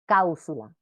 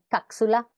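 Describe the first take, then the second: First: The p sound is replaced by a vowel. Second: The p sound is replaced by a consonant. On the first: "o su vocalización" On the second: "deformaciones vulgares del sonido P cuando aparece en posición final de sílaba por K o Z"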